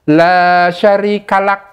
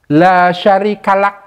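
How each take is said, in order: The two takes are said the same way.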